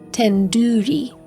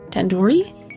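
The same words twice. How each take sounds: First: The middle syllable sounds like 'doo'. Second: The middle syllable sounds like 'door'. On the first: The speaker calls it right. "It's like in doo-doo head" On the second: The speaker calls it wrong. "You're saying it wrong"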